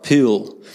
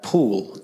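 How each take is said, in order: First: Broad ocker "pool", vowel stretched towards "pewl"; mock broad Australian vowel in "pool"; ocker Australian accent. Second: Proper, posh Adelaide "pool" with a rounded oo; Adelaide accent. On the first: Preacher showing what Adelaide avoids, ocker accent on "pool". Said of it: "We're not ochre". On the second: Preacher showing how Adelaide people speak, posh Adelaide accent on "pool". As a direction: say "pool" in very English-sounding Adelaide vowels. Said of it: "the Adelaide accent sounds very English". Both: Shown as a demonstration.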